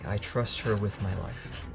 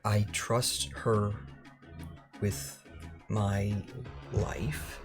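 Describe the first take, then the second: First: It sounds firm and confident. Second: It sounds hesitant and unsure.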